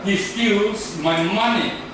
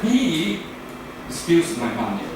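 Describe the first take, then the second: First: The word money carries the main stress. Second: The word he carries the main stress. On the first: It was the money that was taken, not something else. "That means my money, not my book" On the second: That person did it, not someone else. "No one, he, not she"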